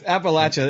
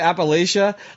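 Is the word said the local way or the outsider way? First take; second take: local; outsider. First: The word is said the local way. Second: The word is said the outsider way. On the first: The speaker knows the region. The speaker calls it right. "It's Appalachia is perfect. That's the right way to say it for sure" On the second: The speaker has never been to the region. The speaker calls it wrong. "if you hear somebody say Appalachia, like, you're like, that's wrong. You've never been there"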